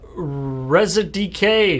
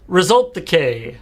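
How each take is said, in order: First: The ending is spelled out as two letters. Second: The ending is said as the word decay. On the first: The speaker calls it wrong. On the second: The speaker calls it right.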